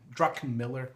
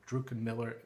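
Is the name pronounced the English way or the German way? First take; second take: English; German. First: The name is said with an English pronunciation. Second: The name is said with a German pronunciation.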